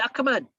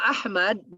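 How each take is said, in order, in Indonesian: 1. Bunyi tengahnya adalah k. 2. Bunyi tengahnya adalah h tenggorokan.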